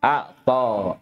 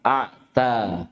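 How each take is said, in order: First: Heavy, dark T in أعطى; emphatic ṭā'. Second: Slow أعتى with thin, front T; light tā'. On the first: Teacher shows ṭā' mid-word, emphatic T. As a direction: say أعطى with a backed T and darkened vowel. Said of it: "طأ في وسط الكلمة". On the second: Teacher contrasts tā' mid-word, light T. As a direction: say أعتى with a plain dental T. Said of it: "فرقوا بين الطاء والتاء". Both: Shown as a demonstration.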